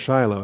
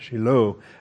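First: The stress is on the first syllable. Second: The stress is on the last syllable. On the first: This is the English form of the name. "it's pronounced Shiloh, that's an English name" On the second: This is the Hebrew form of the name. "accent on the O"

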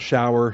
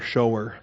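First: It is said to rhyme with 'flower'. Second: It is said like 'show' plus 'er'. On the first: A rain or bath shower. The speaker calls it wrong. "not shower" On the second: One who shows. The speaker calls it right. "The person who shows mercy is a mercy shower"

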